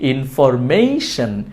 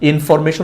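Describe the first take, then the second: First: The 'ma' syllable has an 'ei' glide. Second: The 'ma' syllable has a plain 'e' vowel. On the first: The speaker calls it right. "মেশন না, মেই" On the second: The speaker calls it wrong. "ভুল উচ্চারণ"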